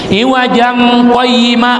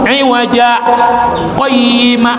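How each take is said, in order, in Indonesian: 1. Kedua kata itu tersambung tanpa jeda. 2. Jeda singkat memisahkan kedua kata itu. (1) "ulang sambung" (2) "maradian tanpa bernapas"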